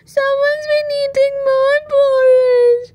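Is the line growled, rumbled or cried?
cried. It is cried in Baby Bear's voice.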